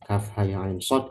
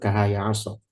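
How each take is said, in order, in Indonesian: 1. Setiap huruf dilafalkan dengan nama lengkapnya. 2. Setiap huruf dilafalkan sebagai suku kata pendek. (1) "yang dibaca adalah asmaul huruf" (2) "kahaya aso ini adalah vokal, ya nutqul huruf"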